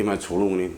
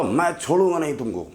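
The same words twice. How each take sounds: First: Echo. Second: Angry threat. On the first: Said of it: "फिर वही आवाज़ वापस आई". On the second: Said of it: "उसको गुस्सा आया बहुत तेज". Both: Acted.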